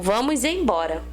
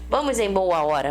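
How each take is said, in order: First: It is said as one fused word. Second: It is said as three separate words. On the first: The speaker calls it right. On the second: The speaker calls it wrong.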